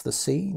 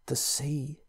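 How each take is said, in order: First: Said in the usual way. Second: Hushed, near-whispered words; barely whispering. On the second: Acted. Pritchard to narrator, a frightened near whisper. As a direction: breathe it out, scared to be heard. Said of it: "he said, barely whispering".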